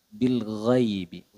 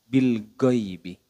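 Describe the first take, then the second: First: The gh flows from the upper throat. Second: The gh is a hard stop like g. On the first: The speaker calls it right. "Nafasnya tertahan, suaranya mengalir" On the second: The speaker calls it wrong. "kesalahan yang sering terjadi adalah bil ghaibi. Go, go, go"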